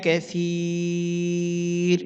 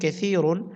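First: The word stops on r after a long vowel. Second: The word ends with a nasal un sound. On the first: "আমরা এখানে অকফ করলে রা সাকিন হবে, এখানে টানতে হবে তিন আলিফ" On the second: "রা দুই পেশ রুন"

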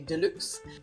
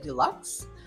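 First: The word is pronounced with a French accent. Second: The word is pronounced with an American accent. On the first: "We pronounce it the French way and say deluxe" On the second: "I think Americans say deluxe"

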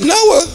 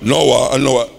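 First: The name is said in a higher voice. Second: The name is said in a deep voice. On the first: "why God could have said" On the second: "God attack that baritone voice"

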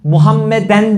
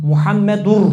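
First: The word ends in -en. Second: The word ends in -ur, linked onward. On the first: The speaker calls it wrong. "Muhammeden değil bak" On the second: The speaker calls it right. "Doğru telaffuz"

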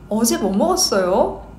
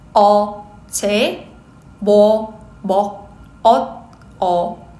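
First: It is said at a quick speed. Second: It is said at a slow speed.

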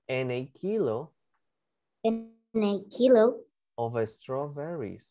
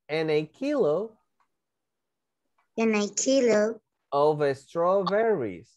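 First: It is said at a faster pace. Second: It is said at a slower pace.

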